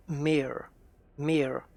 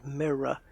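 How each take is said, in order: First: Mirror squashed into one syllable, "meer"; American MIRROR. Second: Mirror in two syllables, "mi-ruh"; British MIRROR. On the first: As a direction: imitate an American mirror, the R's run together. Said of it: "the Americans kinda say". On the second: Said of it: "where we hear the r at the end". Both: Shown as a demonstration.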